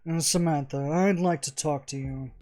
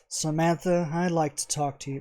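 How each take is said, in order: First: It is said in a hoity-toity voice. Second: It is said in a plain voice.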